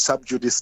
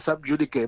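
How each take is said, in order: First: It is pronounced in an anglicized way. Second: It is pronounced in a Latin-style way. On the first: This is how lawyers normally say it. "it's an anglicized pronunciation" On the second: This is how it is said in South Africa. "they say sub judice, but it's because they, maybe they are closer to Latin"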